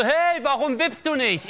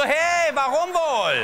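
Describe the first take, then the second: First: Put-on high, slow kid asking, laughing through it; a little fat boy calling from the seesaw; high child voice. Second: Put-on high, very slow sulky kid, laughing; high child voice. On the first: Fat kid on the seesaw asks him why he won't seesaw, high and slow. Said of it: "Der so". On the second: The lonely boy answers the fat kid, high, slow and sulky. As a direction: drag it out like a gloomy little boy. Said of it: "Ich so".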